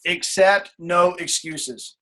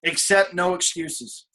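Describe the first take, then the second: First: Slower still, emphatic. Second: Each word laid down slowly; slow it right down so it lands; slow and firm. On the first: Coach repeating the rule, slower and weightier. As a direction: stretch out every word. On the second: Coach to team, slow and deliberate. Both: Shown as a demonstration.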